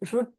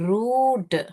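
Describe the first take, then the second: First: The vowel is short. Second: The vowel is long. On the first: The speaker calls it wrong. "ருட் இல்ல" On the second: The speaker calls it right. "பெரிய ஊ தான் வரும் இங்க"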